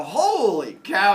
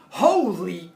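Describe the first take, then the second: First: Slow, cheerful "holy cow" with a rising tune; the good-news version of the cry; happy holy cow. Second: A sudden, shocked "Holy!"; startled loud exclamation. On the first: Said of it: "That's not a good sound". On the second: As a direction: blurt it out loud, caught off guard. Cops shocked at the beer. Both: Retold or imitated.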